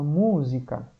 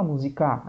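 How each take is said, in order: First: "música" with a raised first MÚ; "MÚ-sica", weight on the first syllable; stress on MU. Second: "musicar" with a raised final CÁ; "musi-CÁ", wrong final stress. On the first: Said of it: "a gente fala música". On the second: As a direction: push the end of "musicar". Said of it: "ninguém fala musicar". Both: Shown as a demonstration.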